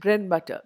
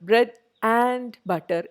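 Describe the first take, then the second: First: The word 'and' is reduced and softly heard. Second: The word 'and' is said clearly and fully. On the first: The speaker calls it right. "ആ and is very softly heard" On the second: The speaker calls it wrong. "എന്ന് ഞാൻ പറയുന്നില്ല"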